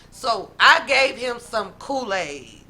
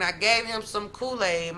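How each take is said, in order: First: Slow, weighty and louder; slow emphatic. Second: Said in the usual way. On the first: Shown as a demonstration. Telling her viewers this part matters, slow and emphatic. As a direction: lean hard on every word. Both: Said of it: "This is important".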